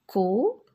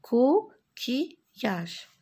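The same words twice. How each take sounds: First: "Coquillage" in three syllables with long gaps. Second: "Coquillage" slow, with short breaks between syllables; syllables closer together. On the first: Teacher showing how coquillage is built, syllable by syllable. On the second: Teacher repeating coquillage for pupils, syllables closer together. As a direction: join "Coquillage" up a little, still syllabified. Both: Shown as a demonstration. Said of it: "Je forme des syllabes".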